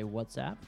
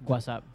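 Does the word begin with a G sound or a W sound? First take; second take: W sound; G sound. First: The word begins with a W sound. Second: The word begins with a G sound. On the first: "You and I would say WhatsApp" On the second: "in Spain, you'd say WhatsApp, like it's with a G"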